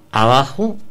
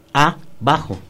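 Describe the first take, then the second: First: Said in the usual way. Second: "abajo" said as "a", pause, "bajo"; split into two words. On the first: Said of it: "es una palabra junta". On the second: Shown as a demonstration. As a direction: break "abajo" after the first "a", leaving a clear gap. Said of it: "ahí está separada la palabra".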